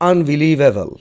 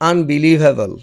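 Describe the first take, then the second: Both takes have the same delivery.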